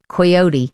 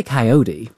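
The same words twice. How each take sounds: First: Coyote in an English accent. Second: Coyote in an American accent. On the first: Presenter checking her word with an American colleague, English accent. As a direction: say coyote the British way, with a long final ee. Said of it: "doing it in my English accent". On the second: Colleague telling the presenter how they say it, American accent. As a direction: say coyote the American way, opening on KAI. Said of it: "We say coyote". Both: Shown as a demonstration.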